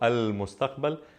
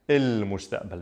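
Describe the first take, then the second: First: Standard Arabic pronunciation, with the article as 'al'. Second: Levantine pronunciation, with the article as 'il'. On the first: "Standard Arabic" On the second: "Levantine Arabic"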